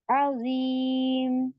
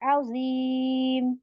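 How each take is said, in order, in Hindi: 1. शब्द सादे m व्यंजन पर खत्म होता है। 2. शब्द सादे m व्यंजन पर खत्म होता है।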